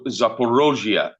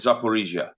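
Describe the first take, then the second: First: The name is said the Russian way. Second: The name is said the non-Russian way.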